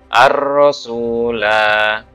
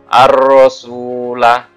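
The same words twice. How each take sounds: First: The final vowel is long. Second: The final vowel is short. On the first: The reader stops here. "Tapi kalau kalian berhenti di sini bacanya" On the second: The reader continues without stopping. "jika wasol huruf lam dibaca pendek"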